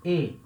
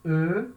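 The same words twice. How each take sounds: First: E said as a closed é, like in café; French é. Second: E said as a short, rounded, neutral vowel; neutral French E. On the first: Teacher contrasts é with the plain E for students. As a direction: model é with spread lips, clear and closed. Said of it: "acento agudo". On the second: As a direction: model the plain French E, lips rounded. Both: Shown as a demonstration.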